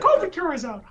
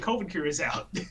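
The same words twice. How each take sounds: First: It is said in a funny high-pitched voice. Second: It is said in a normal speaking voice.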